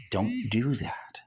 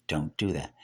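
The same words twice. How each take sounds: First: Slow hushed whisper; whispered warning. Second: Said in the usual way. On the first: Acted. Preacher whispers a warning to the congregation. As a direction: breathe the warning, no voice.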